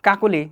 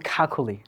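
First: 'কাকুলি' with unaspirated k sounds; no puff of air in 'কাকুলি'; plain k. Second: 'খাকুলি' with breathy puffs after k; native-English style kh in 'খাকুলি'; aspirated k. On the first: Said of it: "যার নাম কাকুলি". ('কাকুলি' অল্পপ্রাণ ক দিয়ে) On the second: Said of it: "তাকে বলবে খাকুলি". ('খাকুলি' মহাপ্রাণ খ দিয়ে) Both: Shown as a demonstration.

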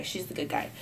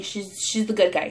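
First: Breathy whisper; whispered aside. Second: Said in the usual way. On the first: Shown as a demonstration. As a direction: drop to a whisper.

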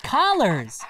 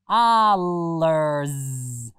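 First: Said in the usual way. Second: "Collars" split after the first sound, then stretched; "Collars" drawn out to a long final Z; sounded-out word. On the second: Shown as a demonstration. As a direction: say "Collars" slowly as C, pause, long ollars. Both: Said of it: "Does the word collars end in".

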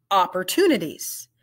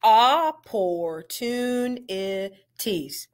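First: "Opportunities" said fast and smooth as one word; quick, blended "Opportunities". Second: Each syllable of "Opportunities" said apart, slowly; slow, split into syllables. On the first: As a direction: run the syllables of "Opportunities" together. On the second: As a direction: break "Opportunities" into its parts. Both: Shown as a demonstration. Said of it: "We're gonna blend it".

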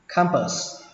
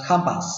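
First: "Campus" said as kham-pơs; schwa second vowel. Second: "campus" said as kham-pás; "ah" second vowel. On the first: Teacher shows first option, "Campus" ending in "pơs". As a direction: say "Campus" with "ơ" in the last syllable. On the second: Teacher shows second option, "campus" ending in "pás". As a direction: say "campus" with "á" in the last syllable. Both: Shown as a demonstration. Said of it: "âm ơ hoặc là âm á".

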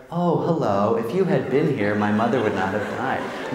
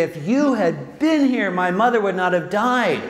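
First: Said in the usual way. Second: Anguished reproach. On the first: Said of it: "Are you gonna say". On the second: Pretend. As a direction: let the grief and reproach break through. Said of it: "No, you're gonna say".

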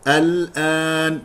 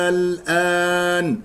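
First: "الآن" said al-aan, short first vowel; short cut hamza. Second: "الآن" said slowly as aal-aan, first vowel stretched; questioning long hamza. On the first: Teacher giving the non-question reading, "الآن" with short opening. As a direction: start "الآن" on a short a, long only after lam. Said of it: "والصواب قطعها". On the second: Teacher showing the misreading, drawn-out "الآن" as aal-aan. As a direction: lengthen the opening a of "الآن". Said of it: "بمد الهمزة الأولى فتصبح استفهامية". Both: Shown as a demonstration.

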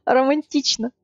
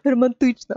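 First: Романтично with "ти" said like "tee"; Russian softened vowel. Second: Романтично with a hard ы in тич; Романтично, hard т before a dark vowel; other speaker's version. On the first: Shown as a demonstration. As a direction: say Романтично with an almost-E vowel in тич. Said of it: "It's like almost E". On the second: Retold or imitated. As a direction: say Романтично as "ro-man-TYCH-na". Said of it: "I like your version more".

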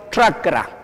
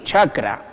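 First: Chakra opening on a 'tr' sound; chakra with tongue near palate and teeth; correct Quechua pronunciation. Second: Chakra with a plain Spanish 'ch', low and casual; lower-pitched chakra with ordinary 'ch' onset; mispronounced chakra. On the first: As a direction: model chakra carefully as 'trakra'. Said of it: "Pero se tiene que decir bien". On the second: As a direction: say chakra the everyday way, as the wrong example. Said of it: "no está pronunciado bien ahí". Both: Shown as a demonstration.

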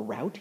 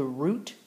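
First: "route" pronounced to rhyme with out; route like rout. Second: "route" pronounced to rhyme with boot; route like root. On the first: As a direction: say "route" with an ow vowel. Offers the alternative pronunciation. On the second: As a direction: say "route" with an oo vowel. Offers two pronunciations of route. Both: Shown as a demonstration.

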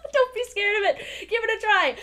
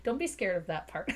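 First: High, loud playful plea; emphatic urging. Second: Said in the usual way. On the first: Real, not acted. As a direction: urge them on loudly, pitched way up. Urging viewers after laughing.

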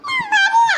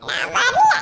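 First: Put-on much higher and louder child's whine; small boy refusing again, louder; stubborn toddler. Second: Put-on much higher little child voice, laughing; a tiny child saying no; small boy refusing grandma in a high laughing voice; toddler refusing. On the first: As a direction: insist like a tiny child.

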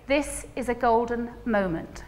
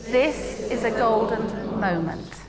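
First: Slow, soft "This is a golden moment"; calm meditative delivery; calm, slow and low. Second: Even slower and lower, savouring each word; calm, slow and low. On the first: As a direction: lower and slower, savouring it. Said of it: "And then you say". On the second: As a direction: breathe it out slowly. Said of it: "Can you say that with me?". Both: Shown as a demonstration.

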